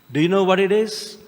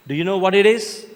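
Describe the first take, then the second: No difference in how they are said.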